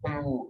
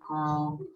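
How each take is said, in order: First: The syllable sounds hollow and echoing, like kof. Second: The syllable sounds thin and clear, fully released. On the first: The speaker calls it wrong. "kalau itu bergema suaranya, ku, jadi kof" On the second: The speaker calls it right. "pastikan domahnya ku sempurna"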